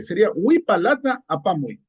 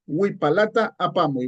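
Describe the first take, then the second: First: Huipalata with the T sound said clearly; corrected with T. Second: Said in the usual way. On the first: Shown as a demonstration. Teacher corrects the missing T in huipalata. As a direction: say huipalata carefully with its T. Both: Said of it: "aquí se nos ha obviado el morfema T".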